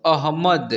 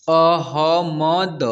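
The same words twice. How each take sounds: First: Said in the usual way. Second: अहमद drawn out, each letter separate; अहमद broken into long separate letters; spelled out letter by letter. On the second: Shown as a demonstration. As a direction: sound out each letter of अहमद slowly and firmly. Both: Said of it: "उच्चारण करना सिखा".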